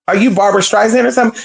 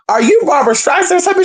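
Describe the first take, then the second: First: Sassy retort. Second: Higher and fast, a sassy dig at a diva; mocking diva retort. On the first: Retold or imitated. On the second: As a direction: throw the diva question back, mocking and quick. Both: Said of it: "she was giving [name]".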